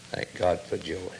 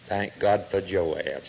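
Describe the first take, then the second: First: Much softer, lower echo; hushed thanks. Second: Slow, stress on God; slow thankful. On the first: Preacher echoing his thanks for Joab, softly. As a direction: let "God" fall to a murmur. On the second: Preacher giving thanks for Joab, slow and grateful. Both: Shown as a demonstration. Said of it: "repeated, softer".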